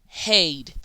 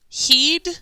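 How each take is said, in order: First: The vowel is a long ay sound. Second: The vowel is a long ee sound. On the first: "Or sound three, aid" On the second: "So is it eed"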